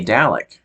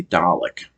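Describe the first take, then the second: First: "Dalek" said DAL-ek, a as in cat; "Dalek" with a flat American a, DAL-ek. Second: "Dalek" said DAH-lek, with a broad ah; "Dalek" the British way, DAH-lek. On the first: American fan saying his natural "Dalek", DAL-ek. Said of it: "feels more natural to say". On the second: Fan saying the British "Dalek" that feels silly, DAH-lek. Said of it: "it just sounds silly if I say". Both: Shown as a demonstration.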